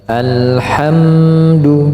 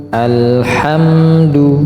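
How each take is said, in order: Both takes have the same delivery.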